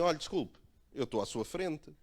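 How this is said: It is said in a harsh, aggressive tone. The speaker calls it right. "foi mais agressivo"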